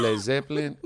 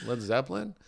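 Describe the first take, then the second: First: Put-on cab driver's Mexican-accented pronunciation; imitated Mexican accent. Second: Said in the usual way. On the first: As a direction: say the band name in a Mexican accent. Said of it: "the quintessential Mexican accent".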